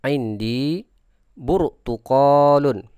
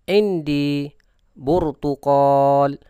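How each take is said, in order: First: The last word ends with a full '-un' ending. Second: The last word stops on a bare final consonant.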